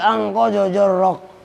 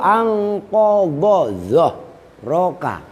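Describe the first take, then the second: First: The last word begins with a 'j' sound. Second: The last word begins with a 'dh' sound. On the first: The speaker calls it wrong. "orang bacanya ngawur" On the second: The speaker calls it right. "Dhahrak kan dha"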